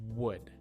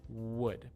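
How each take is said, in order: The two takes are said the same way.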